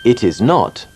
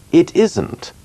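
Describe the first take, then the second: First: Said in the usual way. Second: "It isn't" with is and not run together; contracted form. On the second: Shown as a demonstration. Teacher models the contraction for the class, pitch higher. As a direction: squeeze "isn't" into one contracted word. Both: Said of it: "Remarquez bien que not est la plupart du temps contracté".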